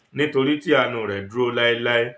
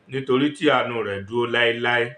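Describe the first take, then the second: No difference in how they are said.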